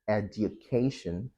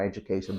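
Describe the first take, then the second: First: The middle sounds like 'd-yu'. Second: The middle sounds like 'j'. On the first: "you can either say edu, du" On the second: "in fast speech, du becomes j"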